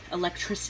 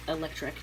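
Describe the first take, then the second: No difference in how they are said.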